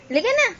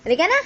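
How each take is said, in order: First: Much higher, singsong; high-pitched coaxing. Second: Said in the usual way. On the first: Real, not acted. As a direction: squeal it up high.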